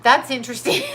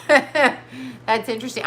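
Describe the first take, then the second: First: Said in the usual way. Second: Laughs, then says it slowly; amused, drawn-out repeat; laughing. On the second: Shown as a demonstration.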